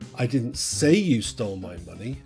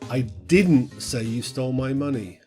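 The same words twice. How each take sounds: First: The word "say" is stressed. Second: The word "didn't" is stressed. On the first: It was implied but never said aloud. "you did, I just didn't say it" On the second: The claim is firmly denied. "Now this sort of emphasizes the negative"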